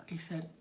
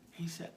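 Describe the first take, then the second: No difference in how they are said.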